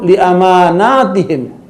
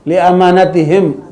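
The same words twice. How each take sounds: First: The middle vowel of amanatihim is drawn out long. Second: The middle vowel of amanatihim is kept short. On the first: It refers to their trusts, plural, taken all together. "Bacanya panjang" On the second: It refers to trust as a single kind. "enggak usah panjang"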